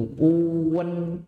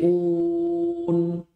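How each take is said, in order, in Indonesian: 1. Vokalnya meluncur ke bunyi vokal tambahan. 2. Vokalnya tetap bersih, tanpa peluncur tambahan. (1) "Pantulan imalah itu tuan, ada uwan, jadi uwe, nggak boleh" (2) "Tapi un, un, nah, itu yang betul"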